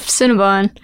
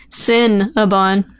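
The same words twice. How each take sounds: First: Said in the usual way. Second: "Cinnabon" slowly, leaning on the "Cin"; stress on Sin. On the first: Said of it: "Get it?". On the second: Shown as a demonstration. Co-host explaining the pun, "Cinnabon" slow with stressed first syllable. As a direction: break "Cinnabon" apart to expose "sin". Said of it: "S I N".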